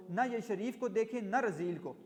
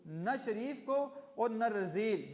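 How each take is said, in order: First: Said in the usual way. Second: Each word drawn out slowly for the class; slow teacher's repetition; slow, explaining. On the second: Shown as a demonstration. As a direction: spell the phrase out slowly, word by word.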